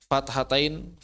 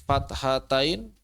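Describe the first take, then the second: Both takes have the same delivery.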